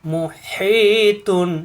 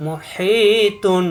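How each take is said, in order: First: মুহিতুন very slow, the ই held for one alif; মুহিতুন slowly recited with a stretched হি. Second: মুহিতুন very slow, the ই held for one alif; মুহিতুন recited slowly with a held হি; one alif stretch. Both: Shown as a demonstration. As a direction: draw out the হি in মুহিতুন. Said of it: "জেরের বামে ইয়া সাকিন এক আলিফ টান".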